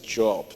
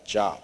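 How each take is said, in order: First: It is said as the biblical name. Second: It is said as the ordinary word job. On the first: The speaker calls it right. "It's a job" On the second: The speaker calls it wrong. "not job"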